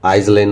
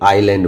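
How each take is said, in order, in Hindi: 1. बीच में s की ध्वनि बोली जाती है। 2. बीच में कोई s की ध्वनि बोली नहीं जाती। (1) "आइसलैंड नहीं बोले" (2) "आइलैंड बोलते हैं"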